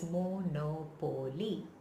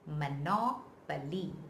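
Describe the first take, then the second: First: The stress is not on the second syllable. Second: The stress is on the second syllable. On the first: The speaker calls it wrong. "it's absolutely wrong" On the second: The speaker calls it right. "the stress is on the second O"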